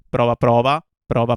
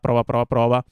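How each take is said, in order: First: The voice sounds open and less boxed in. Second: The voice sounds slightly boxy and boxed in.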